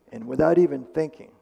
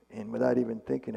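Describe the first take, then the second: First: Louder, higher, leaning on even; stressed: and without EVEN thinking; emphatic. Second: Said in the usual way. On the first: Real, not acted. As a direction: punch the phrase to stress the reflex. Telling the story with emphasis.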